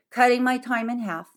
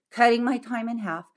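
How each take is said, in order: Both takes have the same delivery.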